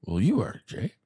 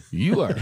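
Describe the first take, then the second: First: Said in the usual way. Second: YOU are, louder and higher with a rise; repeating it firmly to Jake; insistent repeat. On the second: Retold or imitated. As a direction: press the word you, insisting.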